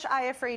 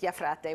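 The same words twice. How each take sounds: First: The name is said with English pronunciation. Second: The name is said with Italian pronunciation. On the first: "In English" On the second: "In Italian"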